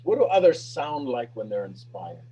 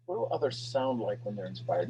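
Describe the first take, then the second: First: Said in the usual way. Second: Much softer, lower repeat. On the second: Shown as a demonstration. Speaker repeating the question to the team, much softer. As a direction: let the question sink in quietly. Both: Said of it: "Now listen".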